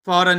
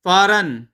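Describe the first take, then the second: First: फॉरेन said like फ़ौरन, meaning quickly; fauran, as Rupa misheard it. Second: फॉरेन said as English foreign, stressed, falling; foreign, the right way. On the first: Husband mimics wife's mistaken word, fauran-like. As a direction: say फॉरेन as pɔɾən, the wrong reading. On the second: Husband corrects wife, saying foreign properly. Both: Shown as a demonstration. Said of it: "फॉरेन नहीं".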